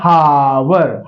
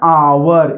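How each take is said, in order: First: The word begins with an h sound. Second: The word begins with a vowel sound. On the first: The speaker calls it wrong. "ये नहीं पढ़ते हावर" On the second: The speaker calls it right. "इसको पढ़ते हैं आवर"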